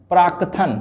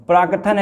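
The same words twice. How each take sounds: First: प्राकथन as praak-kathan with a held k; correct form. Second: प्राकथन with a full ka, praa-ka-than; vowel after क in प्राकथन; wrong form. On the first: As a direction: hold the k closure in प्राकथन. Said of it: "क्या होता है". (प्राकथन में क पर रुककर, प्राक्-कथन) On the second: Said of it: "गलत है". (प्राकथन में पूरा क) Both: Shown as a demonstration.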